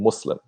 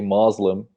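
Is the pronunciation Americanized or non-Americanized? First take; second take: non-Americanized; Americanized. First: It is said without an Americanized pronunciation. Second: It is said with an Americanized pronunciation. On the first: The speaker calls it right. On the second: The speaker calls it wrong.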